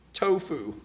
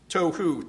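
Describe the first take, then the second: First: Tofu said by mistake, like the food, with an f; a slip, tofu with a clear f sound; slip of the tongue. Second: Tohu said properly, with an h in the middle; corrected word. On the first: Real, not acted. Preacher slipping while voicing a prayer, says tofu. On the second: Shown as a demonstration. Preacher correcting his slip for the congregation, careful Tohu. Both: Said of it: "Said tofu by accident".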